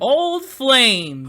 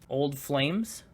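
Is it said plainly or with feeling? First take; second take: with feeling; plainly. First: It is said with exaggerated feeling. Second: It is said plainly, without much feeling.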